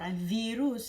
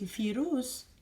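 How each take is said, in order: First: The word is said with a V sound. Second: The word is said with an F sound.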